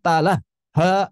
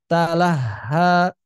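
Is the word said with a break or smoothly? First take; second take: break; smoothly. First: The word breaks with a gap before the ha. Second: The word flows smoothly with no gap inside. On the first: The speaker calls it wrong. "Bukan talah ha, bukan" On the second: The speaker calls it right. "Talahha mengalir"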